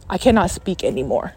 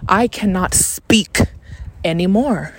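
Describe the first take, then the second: First: Said in the usual way. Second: Slow, separated words with weight on SPEAK; emphatic restatement. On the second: Real, not acted. Podcaster making sure listeners understand, slow stress on SPEAK. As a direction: spell out "cannot speak" slowly.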